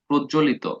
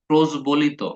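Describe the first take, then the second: First: The j is doubled with no b sound. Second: A b sound is spoken after the j. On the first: This is how the word is actually pronounced. The speaker calls it right. "উচ্চারণটা কি" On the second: It is read this way to remember the spelling. The speaker calls it wrong. "আপনি এভাবে পড়বেন ... যদিও উচ্চারণটা তা না"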